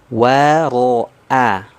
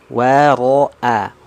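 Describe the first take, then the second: The two takes are said the same way.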